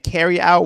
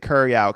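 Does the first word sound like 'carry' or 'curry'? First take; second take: carry; curry. First: The first word is pronounced like 'carry'. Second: The first word is pronounced like 'curry'. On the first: "instead of saying carry out" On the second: "we say curry out because it's our accent"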